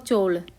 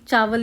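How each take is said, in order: First: It is squeezed into one syllable, 'chaul'. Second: It is said as two syllables, 'chaa-wal'. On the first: This is how it is said in parts of Haryana. "कई हरियाणा की जगहों में सुनने को मिलेगा आपको चौल" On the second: This is the standard form of the word. "वे चौल नहीं, चावल ही होते हैं"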